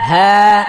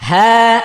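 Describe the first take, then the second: Both takes have the same delivery.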